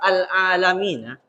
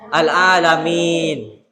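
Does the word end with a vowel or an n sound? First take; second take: vowel; n sound. First: The word ends with a final vowel after n. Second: The word ends on the n sound. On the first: The reading continues without stopping. "yang awalnya itu lafaz al-alamina" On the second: The reading stops at this word. "menjadi al-a al-alamin. Jika dibaca waqaf"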